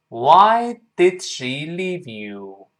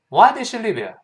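First: The sentence is spoken at a slow pace. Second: The sentence is spoken at a fast pace. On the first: "我们先慢慢读。" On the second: "快点"

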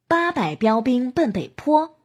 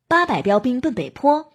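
First: It is spoken at a moderately quick pace. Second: It is spoken at a very fast pace. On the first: "加快速度。" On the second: "再加快。"

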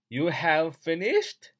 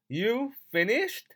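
First: Have is said as a full separate word. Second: Have is reduced and linked, said quickly.

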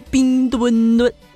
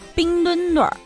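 First: It is said in a Northeastern accent. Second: It is said in a Beijing accent. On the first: No place is colder than the Northeast. "走来了一位东北老铁" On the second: The Winter Olympics are held in Beijing. "北京人不服了"

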